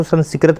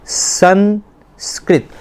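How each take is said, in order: First: संस्कृत said as sanskarat with a vowel after s; wrong reading. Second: संस्कृत said very slowly as sans-krit; careful correct pronunciation. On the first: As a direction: mispronounce संस्कृत as san-si-krat. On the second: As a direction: stretch संस्कृत syllable by syllable, krit at the end. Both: Shown as a demonstration. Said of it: "इसको संस्कृत नहीं पढ़ना".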